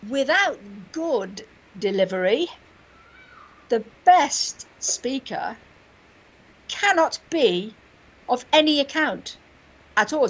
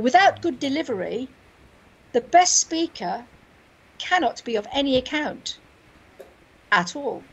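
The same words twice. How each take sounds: First: It pauses after without and slows after good. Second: It has a single pause after delivery.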